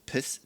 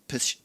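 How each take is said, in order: Both takes have the same delivery.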